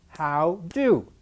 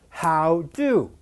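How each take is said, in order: Both takes have the same delivery.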